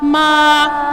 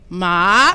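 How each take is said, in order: First: The pitch stays high and level. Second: The pitch rises from mid to high. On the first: "First tone was ... Little higher. Remember, sing song" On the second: "Second tone is a rising tone"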